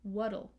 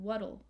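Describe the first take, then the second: First: The middle consonant is a soft D-like flap. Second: The middle consonant is a soft D-like flap.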